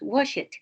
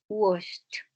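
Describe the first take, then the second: First: The ending is not pronounced as a T. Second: The ending is pronounced as a T. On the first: The speaker calls it wrong. "No pronunciamos washed" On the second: The speaker calls it right. "Esa ed se pronuncia como una T"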